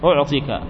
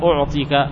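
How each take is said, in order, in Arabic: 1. الصائت الأوسط قصير، بدون صوت الياء. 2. الصائت الأوسط طويل، مع صوت الياء.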